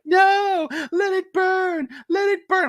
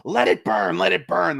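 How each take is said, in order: First: Much higher, loud shrieking "let it burn"; Laurie's trailer shout. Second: Higher, mock defiant yell; imagined Laurie defiance. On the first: Retold or imitated. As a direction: shriek it like a woman defiant in a fire. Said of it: "she's like". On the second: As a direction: refuse to budge, hammed up. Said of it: "she goes".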